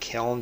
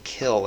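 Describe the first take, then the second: First: The word ends with an n sound. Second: The word ends without an n sound. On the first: This is how most people say it. The speaker calls it wrong. "and not kiln" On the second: This is the original pronunciation. The speaker calls it right. "I'm saying kill"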